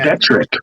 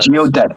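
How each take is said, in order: First: An R sound follows the T. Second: No R sound follows the T. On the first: The speaker calls it wrong. "you're saying geodetric. Geodetric has an R in it" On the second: The speaker calls it right. "It's geodetic"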